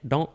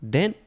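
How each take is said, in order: First: The word has an 'oh' vowel, like English don't. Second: The word has an 'eh' vowel, like English dent.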